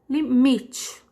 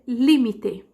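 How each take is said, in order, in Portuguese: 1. A tônica é na sílaba 'mi'. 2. A tônica é em outra sílaba. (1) "O mi é o mais forte em português" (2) "Em espanhol, eu vou dizer límite"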